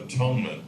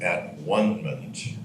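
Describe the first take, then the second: First: The word is said smoothly as one word. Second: The word is split into at, one, ment. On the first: "the idea of atonement" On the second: "another uh, pronunciation like at-one-ment"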